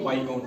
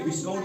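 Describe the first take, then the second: First: No s sound comes before the k sound. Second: An s sound comes before the k sound. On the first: The speaker calls it right. "बल्कि वाई काउंट पढ़ेंगे" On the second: The speaker calls it wrong. "विस्काउंट नहीं पढ़ेंगे"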